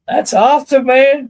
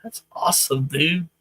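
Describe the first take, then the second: First: Much louder and higher, thrilled; excited. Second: Said in the usual way. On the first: Real, not acted. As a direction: burst out with real delight.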